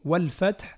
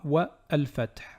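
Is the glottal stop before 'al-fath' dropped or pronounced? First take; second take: dropped; pronounced. First: The words run together without a glottal stop. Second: The glottal stop before the article is pronounced. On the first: The speaker calls it right. "wal fath et non pas" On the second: The speaker calls it wrong. "et non pas"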